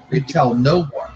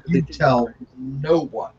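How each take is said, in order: First: Said in the usual way. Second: "You tell no one" slowed right down; weighty, drawn-out "tell no one"; slow emphatic repeat. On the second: Real, not acted. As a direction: spell out "no one" slowly, word by word. Repeats the warning slowly for emphasis.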